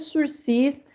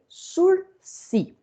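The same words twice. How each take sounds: First: The final S is clearly sounded. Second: The final S is silent. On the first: This is how the word is written. "Se escreve sursis" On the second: This is how the word is read aloud. "mas se lê sursis"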